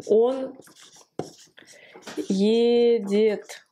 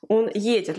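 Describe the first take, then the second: First: Едет stretched, with a long pause before it; sounding out slowly. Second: Едет at normal length, first syllable stressed. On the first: Teacher writing out il va, slow syllable-by-syllable. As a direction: hold each syllable of едет. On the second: Teacher showing where едет is accented, first-syllable stress. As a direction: lean on the opening е of едет. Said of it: "L'accent sur le yé". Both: Shown as a demonstration.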